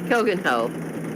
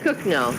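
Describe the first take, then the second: First: The name is read out in full as spelled. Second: The name is said in a short, contracted form. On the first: The speaker calls it wrong. "looks like Koganho" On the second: The speaker calls it right. "but it's pronounced Cookno"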